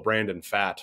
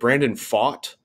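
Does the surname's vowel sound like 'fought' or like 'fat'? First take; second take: fat; fought. First: The surname rhymes with 'fat'. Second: The surname rhymes with 'fought'. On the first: The speaker calls it wrong. "we've jokingly called this poor fellow Brandon Fat" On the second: The speaker calls it right. "You got it"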